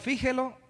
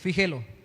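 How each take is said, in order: First: The stress is on the first syllable. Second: The stress is on the middle syllable. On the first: The speaker calls it wrong. "sería tilde en la I" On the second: The speaker calls it right. "es grave y termina en vocal"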